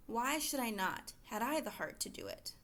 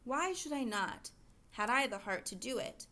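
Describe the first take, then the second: First: Said in the usual way. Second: "Why should I not", a clear pause, then "had I"; pause after NOT. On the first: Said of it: "Where do we want kids to pause". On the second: Shown as a demonstration. Teacher showing students where to pause, a deliberate break after "not". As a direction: stop briefly after "not" before going on. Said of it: "I'm gonna do that right here".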